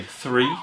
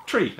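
First: "three" said with a TH; TH sound in three. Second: "tree" said with a plain hard T; Irish T for TH. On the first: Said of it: "we don't really have a T H". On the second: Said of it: "we say tree". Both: Shown as a demonstration.

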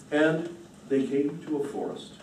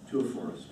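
First: Said in the usual way. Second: Quieter, lower echo of forest; low soft echo. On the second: A narrator's reading. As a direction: let it sink away. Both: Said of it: "repeated phrase".

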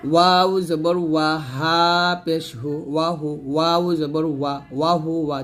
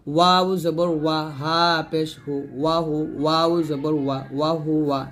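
The two takes are said the same way.

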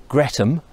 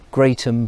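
First: Gretham with a short GRET, the middle sound dropped; local pronunciation. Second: Said in the usual way. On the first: Shown as a demonstration. Walker giving the locals' name for the bridge, local pronunciation. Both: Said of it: "as I think they also like to, uh, pronounce it".

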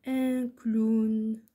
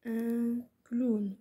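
First: Slow, loud, stretched-out dictation. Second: Said in the usual way. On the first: Shown as a demonstration. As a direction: project it slowly to pupils who are writing. Dictating words for pupils to write. (إملاء بطيء بصوت مرتفع)

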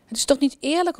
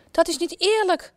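First: Near tears. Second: High, indignant outburst of an angry queen; queen protesting angrily, a high indignant cry. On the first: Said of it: "begint bijna te huilen". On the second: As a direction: cry it out furious that it's unfair. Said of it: "roept de koningin boos". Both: A narrator's reading.

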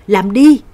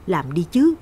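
First: Loud, forceful command; louder shout. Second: Said in the usual way. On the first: A narrator's reading. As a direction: shout the order at full voice. (quát lớn ra lệnh) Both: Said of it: "Tôi nhắm mắt quát lớn hơn".

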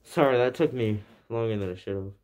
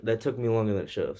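First: Talking through cloth over mouth; muffled behind fabric mask; muffled by shirt. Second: Said in the usual way. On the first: Real, not acted. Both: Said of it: "what I said is that".

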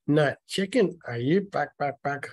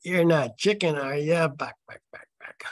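First: Higher, louder taunt, falling off on the clucks; chicken taunt. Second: Higher, louder jeer, then hushed clucks; hammed-up taunt that fades away on the clucks; chicken taunt, acted out. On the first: A narrator's reading. Mike dares Jim by calling him chicken, taunting. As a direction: needle him like a schoolyard bully. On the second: Reader acts out Mike goading Jim, taunting and hammy. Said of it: "Well, let's do that".

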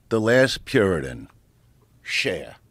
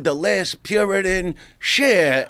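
First: Low-key run-through of a stage intro; understated announcer at rehearsal; rehearsed introduction. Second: Raised-pitch announcer's build to the name; showy introduction, voice lifted; live stage introduction. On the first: Rehearsing the introduction, hitting his mark. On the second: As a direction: announce the star to a full house. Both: Retold or imitated.

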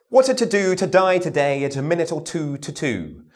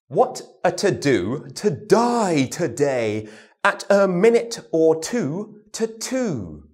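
First: Said in the usual way. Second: Slow, crisp "to-do to die today"; slow t-d drill. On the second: Shown as a demonstration. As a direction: spell out every t and d slowly. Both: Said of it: "Now our t and our does with words".

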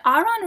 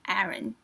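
First: "Aaron" said as AH-ron; Korean pronunciation. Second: "Aaron" said as AIR-un; flat "a" and weak second syllable in "Aaron"; English pronunciation. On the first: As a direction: open "ah" in both syllables of "Aaron". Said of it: "that's how they say it in Korean". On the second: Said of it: "I think it's Aaron". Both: Shown as a demonstration.

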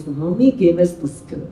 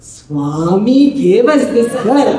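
First: Lightly mimicked contented delivery, lower-pitched; happy intonation. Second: Put-on "Swami gave us this girl" drawn out slowly, rising and falling; different intonation. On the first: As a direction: say it as if pleased, softly understated. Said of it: "how happy it is". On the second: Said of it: "intonation is different".

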